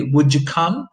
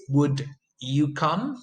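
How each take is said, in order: First: "Would you" blended into "wouldja"; connected speech demo. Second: "Would you" said slowly as two separate words; slow careful demo. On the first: Teacher modelling the blend for students, natural. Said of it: "and you say". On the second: Teacher contrasting careful speech for students, slow. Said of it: "they come together to form a new sound". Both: Shown as a demonstration.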